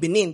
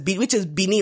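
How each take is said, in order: First: The name is said the anglicized English way. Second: The name is said the local way, like Bina. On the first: This is the form after the name was anglicized. "became Benin because lots of things were anglicized" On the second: This is how the place was originally called. "which was pronounced as Benin, like B-I-N-A"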